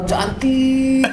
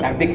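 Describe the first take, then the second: First: The word is said with lengthened sounds. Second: The word is said at normal length. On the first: The woman is very pretty. "Tapi kalau cantik banget" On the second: The woman is ordinarily pretty. "Cantik biasa nih"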